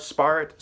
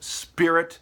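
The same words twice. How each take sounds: First: "spirit" with the first syllable like "spy"; altered vowel. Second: Said in the usual way. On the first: Shown as a demonstration. Martial arts wordplay, "spirit" pronounced "spy-rit". Word play on spirit's sound.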